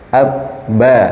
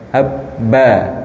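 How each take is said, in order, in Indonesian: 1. Bunyi b dilepas lembut dari bibir yang hanya menyentuh ringan. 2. Bunyi b ditekan keras dari bibir yang tertutup rapat. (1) "tapi cukup lembut" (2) "tidak ab, ba, ab, ba atau dari mingkem"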